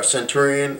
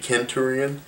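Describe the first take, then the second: First: The word starts with a soft S sound. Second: The word starts with a hard K sound. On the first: The speaker calls it wrong. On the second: The speaker calls it right. "is supposed to be Kenturion"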